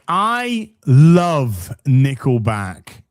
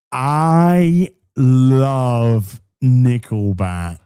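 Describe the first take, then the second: First: "I love Nickelback" loud and slow, each word separated; emphatic declaration. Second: Very slow, loud, stretched words; low, booming, hugely drawn-out proclamation; exaggerated declaration. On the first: Acted. Reads emphatic declaration, then repeats. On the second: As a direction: drag every word out at full voice. Repeats declaration even more drawn out.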